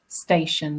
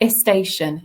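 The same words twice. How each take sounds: First: The word starts directly with the st cluster. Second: An extra vowel sound comes before the st.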